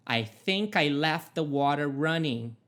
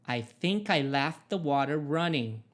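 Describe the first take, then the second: No difference in how they are said.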